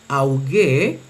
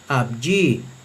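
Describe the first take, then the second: First: The first syllable has an au vowel sound. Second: The first syllable has a v consonant sound. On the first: "en la pronunciación erasmiana se leería auge" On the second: "en la pronunciación reucliniana se leería abji"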